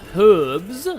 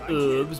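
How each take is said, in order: First: The word is said in a non-American way. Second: The word is said in an American way. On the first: The speaker calls it right. "because I'm not American" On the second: The speaker calls it wrong. "not herbs, because I'm not American"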